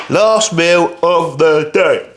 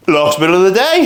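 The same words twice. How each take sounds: First: Slow worn-out drawl; tired and slow. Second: Said in the usual way. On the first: Real, not acted. Tired bodybuilder announcing his last meal, slow and worn out. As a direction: drag it out, exhausted. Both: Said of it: "I am fucking shattered".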